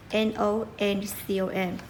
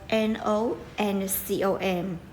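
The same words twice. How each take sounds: The two takes are said the same way.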